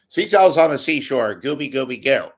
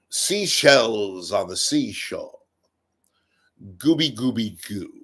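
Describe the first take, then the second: First: It is spoken in the speaker's normal accent. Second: It is spoken in a put-on British accent. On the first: It sounds less impressive. The speaker calls it wrong. "if you said it normal" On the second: It sounds elegant and persuasive. The speaker calls it right. "if it's a British like"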